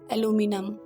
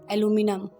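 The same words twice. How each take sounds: First: It is said in an American accent. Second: It is said in an American accent.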